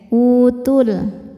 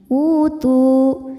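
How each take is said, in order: First: The final vowel is short and runs into 'l'. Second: The final vowel is held long before stopping. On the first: The reading continues into the next word. "Kalau diteruskan jadi pendek" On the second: The reading stops on this word. "Maka tu panjang dua harokat jika berhenti"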